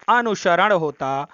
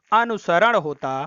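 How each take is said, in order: Both takes have the same delivery.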